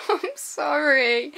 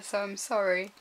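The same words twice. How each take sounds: First: Loud, slow, laughing sorry; laughing apology. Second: Said in the usual way. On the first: Real, not acted. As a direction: giggle through the apology. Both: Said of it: "I'm not going to tease you anymore".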